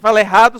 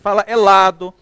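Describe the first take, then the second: First: The middle consonant is a normal r sound. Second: The middle consonant is replaced by an l. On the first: "Quem fala errado somos nós" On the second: "Treinei o dia todinho falar isso com vocês"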